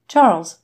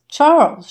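First: First call of the name, louder; crying out. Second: Second call, much higher and louder; crying out. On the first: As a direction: call Charles across the room. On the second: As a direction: cry Charles out in alarm. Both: A narrator's reading. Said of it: "she cried".

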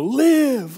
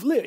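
First: High, loud call of live; emphatic call. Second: Said in the usual way. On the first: Retold or imitated. Preacher crying out live to the dry bones, high and loud. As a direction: ring out live like a summons. Pastor chanting the call to life.

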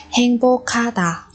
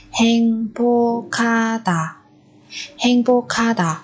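First: Said in the usual way. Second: Slowed for learners. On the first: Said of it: "Tình cảm, chúng ta có từ". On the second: Shown as a demonstration. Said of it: "Ở đây chúng ta lại có biến âm".

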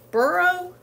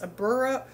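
First: Burro said higher and louder, testing it; trying the Spanish. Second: Said in the usual way. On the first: Shown as a demonstration. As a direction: burro tried again, pitched up as a guess. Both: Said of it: "Is that how you say that?".

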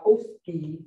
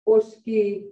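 First: Oski starting with an English "oh". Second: Oski with a short, unglided o; louder oski, punching the first vowel; pure strong O. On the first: Teacher showing a wrong way she has heard, English-style oski. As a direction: lower oski with a relaxed gliding o. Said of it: "I've heard all those". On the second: Teacher giving learners the right version, pure-vowel oski. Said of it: "like if you did it in English". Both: Shown as a demonstration.

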